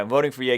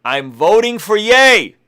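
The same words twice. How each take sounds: First: Said in the usual way. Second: Louder, slower and higher, each word landed; proclaiming the tweet to his viewers, slow and emphatic; emphatic announcement. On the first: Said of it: "All right, I'm voting for [name]". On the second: Shown as a demonstration. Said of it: "this is what I said".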